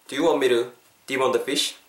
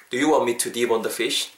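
First: "want me to" linked as "wan-me-ru". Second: Said in the usual way. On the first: Shown as a demonstration. Teacher sums up the sentence, "to" tapped like "ru". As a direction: soften the T of "to" to a quick tap. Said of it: "루 정도 혹은 do 정도로도". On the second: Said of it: "to 부분이 약간 루 정도".

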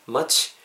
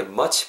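First: Said in the usual way. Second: Much ending in a rounded "chwi"; over-rounded much. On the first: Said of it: "그냥 자연스럽게". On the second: Shown as a demonstration. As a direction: overdo the lips on the end of much. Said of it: "이렇게 입술 둥글게 마시고 취". (much 끝을 입술 둥글게 "취"로)

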